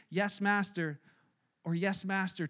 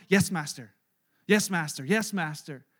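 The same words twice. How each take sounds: First: Said in the usual way. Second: Low, lightly voiced obedient reply; a hint of a servant bowing to orders; submissive servant. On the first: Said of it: "you're saying". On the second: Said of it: "their response to commands is always".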